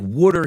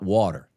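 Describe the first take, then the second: First: It is said in a Philadelphia accent. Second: It is said in a standard accent. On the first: "it's like water here in Philadelphia" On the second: "not water"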